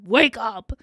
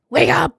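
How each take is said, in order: First: Said in the usual way. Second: Louder wake up with a rising up. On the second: Real, not acted. Streamer rousing herself on stream, shouting. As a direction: shout yourself awake. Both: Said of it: "trying not to fall asleep".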